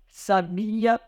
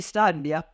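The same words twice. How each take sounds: First: Sabia slowly, with a drawn-out BI; sabia, stretching the i; stress on BI. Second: Sabia said as the adjective SÁ-bia; stress on SA. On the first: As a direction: say sabia as the verb, sa-BI-a. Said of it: "alterando o acento já tem significado". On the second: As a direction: hit the first syllable of sabia. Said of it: "sábia é aquela pessoa". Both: Shown as a demonstration.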